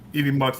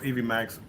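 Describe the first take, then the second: First: The second word has the 'uh' vowel, like 'ducks'. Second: The second word has the 'a' vowel, like 'tax'. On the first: "it's spelled like EV Mu- EV Mux" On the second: "it's pronounced EV Max"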